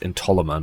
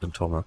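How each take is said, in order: First: The word has four syllables. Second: The word has three syllables. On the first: The speaker calls it right. "it's Entoloma" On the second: The speaker calls it wrong. "not Entolma"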